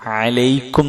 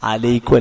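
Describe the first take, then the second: First: It starts with a throaty 'ain sound. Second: It starts with a plain vowel sound. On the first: The speaker calls it right. "അലൈക്കും എന്നാണ്, ഐനാണ്" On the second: The speaker calls it wrong. "അലൈക്കും അല്ല"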